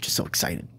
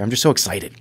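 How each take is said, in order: First: Whispered repeat. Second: Said in the usual way. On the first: Real, not acted. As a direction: whisper "just so excited" under the breath, much softer. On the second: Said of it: "my voice cracked there".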